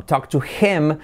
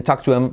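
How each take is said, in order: First: "Talk to him" with H sounded; full H. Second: "talk to him" as talk-tu-em; dropped H. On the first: Teacher shows form before linking, H sounded. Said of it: "se convierte en". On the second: Teacher shows skipped H, linked. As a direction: skip the H in HIM, joining it to TO. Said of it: "saltamos la H". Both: Shown as a demonstration.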